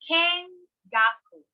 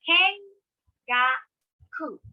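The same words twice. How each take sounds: First: It is said at a normal, connected speed. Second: It is said slowly, one syllable at a time.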